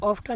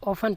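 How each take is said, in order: First: The t sound is pronounced in the middle. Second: The t sound is silent in the middle. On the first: The speaker calls it wrong. "इसको ऑफ्टन नहीं पढ़ते" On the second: The speaker calls it right. "ओफन पढ़ते हैं, तो इसमें टी silent हो जाता है"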